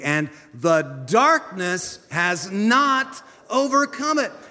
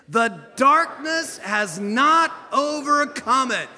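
First: It is said plainly, without special force. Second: It is said forcefully, with strong conviction.

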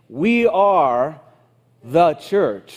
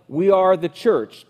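First: It is said with a pause inside it. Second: It is said without an inner pause.

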